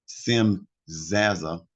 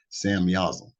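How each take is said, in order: First: The first syllable is pronounced Sim. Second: The first syllable is pronounced Sam.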